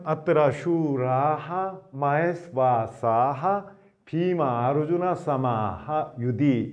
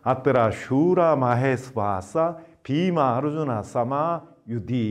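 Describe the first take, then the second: First: Words are separated, each keeping its final h. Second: Words run together, final h sounds dropped. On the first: Each word is read on its own. "끊어 읽을 때는" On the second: The words are joined by sandhi rules. "이어 읽을 때는 ... 윗사르가가 탈락된 형태로 읽게 됩니다"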